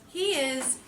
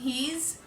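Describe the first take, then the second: First: It is said as two separate words. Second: It is said as one contracted word.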